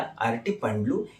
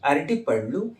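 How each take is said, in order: First: The word ends with the sounds pandlu. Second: The word ends with the sounds pallu. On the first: "ये जो पल्लू पंडलू होता है, दोनों का pronunciation थोड़ा अलग" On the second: "ये जो पल्लू पंडलू होता है, दोनों का प्रोनाउंसिएशन थोड़ा अलग"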